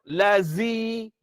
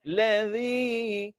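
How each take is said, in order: First: The consonant is pronounced heavy and thick. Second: The consonant is pronounced light and thin. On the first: The speaker calls it wrong. "Kalau berat, lazi. Lazi itu berat" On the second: The speaker calls it right. "Nampak ringan?"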